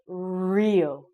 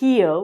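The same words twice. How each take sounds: First: The word begins with an English R sound. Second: The word begins with a breathy H sound. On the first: The speaker calls it right. "We sound it like an R sound" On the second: The speaker calls it wrong. "not an H. So we don't say Rio"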